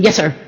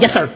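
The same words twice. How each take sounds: First: Eager soldier's quick yes sir. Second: Quick yes sir. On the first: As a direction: fire back yes sir at once. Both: Shown as a demonstration.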